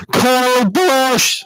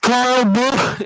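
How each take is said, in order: First: High, drawn-out scream right on the microphone; kid screaming into mic. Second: High, loud yell chopped off on "Busch!"; cut-off scream. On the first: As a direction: scream the full name, mouth on the mic. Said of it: "literally eats it like what I'm doing". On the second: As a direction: scream it, "Busch!" cut dead like a dropped mic. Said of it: "so it just sounds like". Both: Retold or imitated.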